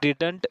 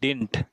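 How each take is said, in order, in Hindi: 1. बीच वाली d की आवाज़ साफ़ बोली जाती है। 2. बीच वाली d की आवाज़ पूरी तरह छोड़ दी जाती है। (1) "इसे कभी भी डिडंट नहीं पढ़ते दोस्तों" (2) "इसे पढ़ते हैं डिंट"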